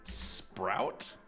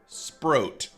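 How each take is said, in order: First: The vowel sounds like the one in 'out'. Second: The vowel sounds like the one in 'oat'. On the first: The speaker calls it wrong. "Not Sprout" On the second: The speaker calls it right. "Sproat. Not Sprout"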